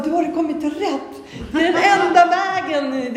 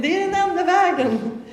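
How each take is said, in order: First: High, loud, overjoyed declaration; high thrilled proclamation, louder than her usual talk; excited exclamation. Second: Sung, turn the words into a happy little song; high sung refrain of the same words. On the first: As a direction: burst out with joy, pitched high. Excitedly telling Johan about God. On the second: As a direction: sing the line high and joyfully, almost a chant. Repeats the line, singing it. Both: Retold or imitated.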